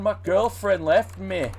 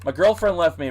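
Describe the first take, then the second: First: It is said in an attempted Australian accent. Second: It is said in a plain American accent. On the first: "I don't know how to do Australian accents. ... I can't do it" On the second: "I'm just going to speak regular American"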